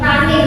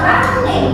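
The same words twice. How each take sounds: First: The double consonant is said short, as one. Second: The double consonant is held long and pressed. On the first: The speaker calls it right. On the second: The speaker calls it wrong.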